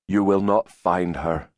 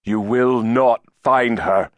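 First: Said in the usual way. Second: "You will not find her" slow, louder and higher; firm repetition. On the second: A narrator's reading. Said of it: "Giles repeated".

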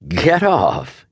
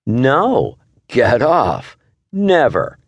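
First: A light laughing protest. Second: Much higher, squeaky playful mockery; mock fly voice. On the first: Husband laughs as wife climbs on him, laughing protest. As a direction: push her off while half laughing. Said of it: "he said, laughing". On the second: Wife mocks husband's get off, silly high playful voice. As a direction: echo him in a silly high insect voice. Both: A narrator's reading.

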